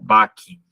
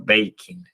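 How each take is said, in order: First: The first vowel is short, as in cat. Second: The first vowel is long, as in day. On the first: A beginner reads it straight from the spelling. The speaker calls it wrong. "seguramente esta palabra la leería como backing" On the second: This is how the word is actually heard. The speaker calls it right. "no es backing, sino baking"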